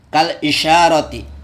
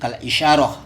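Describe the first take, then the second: First: The last word keeps its full ending 'ati'. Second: The last word stops short, ending in 'ah'. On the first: The word is read with all its vowel marks. "sesuai Arabnya dulu, uh, dibaca apa adanya ya" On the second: The reading pauses at the end of the word. "kalau dibaca waqaf itu berhenti kal isyarah"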